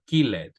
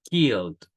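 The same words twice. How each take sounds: First: The -ed ending is said as an extra syllable. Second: The -ed ending adds no extra syllable. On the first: The speaker calls it wrong. "it's incorrect" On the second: The speaker calls it right. "No pronuncio aquí"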